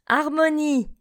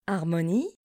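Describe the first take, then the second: First: Harmonie said clearly, higher, falling; teacher models Harmonie for learners, clearly; model word. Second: Harmonie repeated softer and lower. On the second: Teacher echoes Harmonie quietly for the class. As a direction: softly echo Harmonie. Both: Shown as a demonstration. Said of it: "Répétez après moi".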